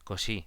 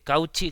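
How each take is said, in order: First: The name is pronounced the French way. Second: The name is pronounced the Spanish way. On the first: The speaker calls it right. "yo diría que es Cauchy" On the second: The speaker calls it wrong. "como so- se diría si tú te dijeras esta palabra y dila en castellano"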